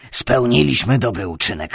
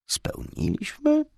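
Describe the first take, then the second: First: Said in the usual way. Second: Spełniliśmy muttered with a sharp rising tune; questioning Spełniliśmy. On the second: A narrator's reading. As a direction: doubt the word Spełniliśmy, rising at the end. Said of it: "mruknąłem".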